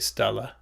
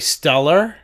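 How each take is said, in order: First: The final r is dropped, Boston style. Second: The final r is clearly sounded. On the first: "In Boston, we would say Stella"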